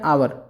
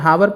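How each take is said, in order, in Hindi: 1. इस शब्द की शुरुआत स्वर से होती है, h नहीं है। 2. इस शब्द की शुरुआत में h की ध्वनि है। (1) "लेकिन हम इसको पढ़ते हैं क्या, आवर" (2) "वैसे तो इसको हावर पढ़ना चाहिए"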